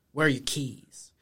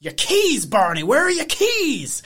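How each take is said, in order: First: Low-key retold question. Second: Loud, high-pitched frantic questioning; hammed-up upset sheriff, voice swooping up on "keys"; Christopher Lloyd. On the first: First take of retold upset Andy. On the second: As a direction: yell it like a frantic movie eccentric. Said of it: "you became Christopher Lloyd there".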